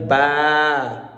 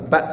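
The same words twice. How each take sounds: First: "ba" with the a held long; long vowel. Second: "ba" with a short, unstretched a; short vowel. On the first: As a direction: stretch "ba" out on one drawn-out vowel. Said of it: "si on a avec alif". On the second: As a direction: cut the a short in "ba". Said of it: "exemple, ba seulement". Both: Shown as a demonstration.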